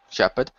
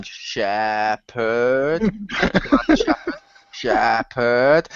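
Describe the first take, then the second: First: Low, short one-word greeting; imitated deep-voiced curt hello; terse greeting. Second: Hammed-up, long-drawn name; slow, low, exaggerated drone; played-up greeting. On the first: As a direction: say the name low and brief. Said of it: "start to play it up more". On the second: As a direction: stretch both syllables out absurdly in a low voice. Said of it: "play it up more by going".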